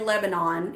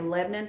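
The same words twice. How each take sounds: First: Lebanon is said the standard, non-local way. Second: Lebanon is said the local Tennessee way. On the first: "We don't say Lebanon here in Tennessee" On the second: "we say Lebanon"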